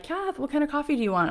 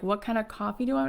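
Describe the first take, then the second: First: High, quick, chirpy question; imitated coffee offer. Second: Quick, incredulous repeat of the question; mock-stunned echo, hurried; disbelieving echo. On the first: Producer asking Kath about coffee, high and quick. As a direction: mimic a quick, casual offer in a higher voice. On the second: Starstruck singer echoing the coffee question, disbelieving.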